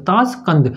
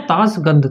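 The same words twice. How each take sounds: First: ताशकंद said with a clear crisp k; ताशकंद, hard k sound, fixing the slip; corrected pronunciation. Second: ताशगंद, voiced g instead of k; slip of the tongue. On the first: Teacher corrects himself on ताशकंद for students, clear fix. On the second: Teacher slips on ताशगंद to his students, tentative mispronunciation. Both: Shown as a demonstration.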